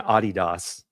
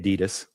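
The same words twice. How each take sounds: First: It is said in a British accent. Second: It is said in an American accent.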